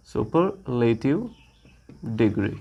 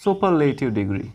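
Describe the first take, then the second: First: superlative stretched out very slowly, then degree low and soft; slow dictation. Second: Said in the usual way. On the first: Shown as a demonstration. Teacher slowly dictating superlative degree to students, slow and clear. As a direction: spell out superlative slowly, each sound clear.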